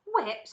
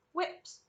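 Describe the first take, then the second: First: Higher, louder startled echo; incredulous cry. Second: Said in the usual way. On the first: A narrator's reading. Veruca cries out at the door sign, incredulous. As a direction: exclaim it in disbelief. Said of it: "cried Veruca Salt".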